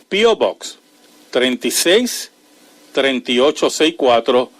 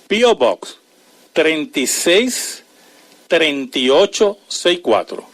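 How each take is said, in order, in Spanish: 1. El número se lee a un ritmo más rápido. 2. El número se lee a un ritmo más lento.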